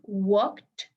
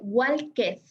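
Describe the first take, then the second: First: The ending is a single consonant, no extra syllable. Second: The ending is said as a separate syllable. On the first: The speaker calls it right. "irte del sonido de la K a la letra D. No le des sonido a la E" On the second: The speaker calls it wrong. "No se dice walked"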